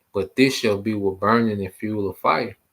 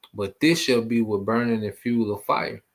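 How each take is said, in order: The two takes are said the same way.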